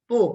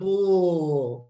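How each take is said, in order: First: The syllable is said short and clipped. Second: The syllable is drawn out long. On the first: The speaker calls it right. "You do it three times" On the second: The speaker calls it wrong. "instead of dragging the sound"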